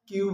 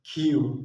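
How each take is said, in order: First: The k sound is plain, without a breath. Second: The k sound has a puff of breath. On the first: The speaker calls it wrong. "কিউ বলতাম" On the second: The speaker calls it right. "সেটাকে বলা হয় খিউ"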